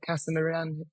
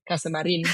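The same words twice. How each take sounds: First: The name is said with an English accent. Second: The name is said with a Spanish accent.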